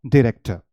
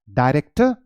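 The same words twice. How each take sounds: First: डायरेक्टर said "di-REK-tuh"; second pronunciation. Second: डायरेक्टर said "dye-REK-tuh"; first pronunciation. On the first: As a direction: start डायरेक्टर with short "di". (डायरेक्टर को "डिरेक्टर" बोलें) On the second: (डायरेक्टर में "डाय" की आवाज़) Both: Shown as a demonstration. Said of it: "दो pronunciation है".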